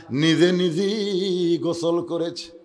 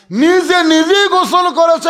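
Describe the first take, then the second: First: Said in the usual way. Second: Loud, high-pitched repeat; emphatic preaching cry. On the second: A narrator's reading. Preacher repeats for the congregation that she bathed herself, emphatic cry. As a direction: proclaim it at full force, high and loud.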